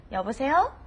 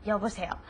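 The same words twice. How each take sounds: First: "여보세요?" with a rise on the last syllable; rising question. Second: "여보세요." falling and softer at the end; falling answer. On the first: Teacher calling "여보세요?" like a question. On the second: Teacher answering "여보세요." with a fall. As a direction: close it down, flat and falling. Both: Shown as a demonstration. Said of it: "So it's hello".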